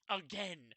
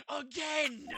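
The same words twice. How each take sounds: First: Said in the usual way. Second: Louder, higher repeat; shouted again. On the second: Acted. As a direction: yell it this time.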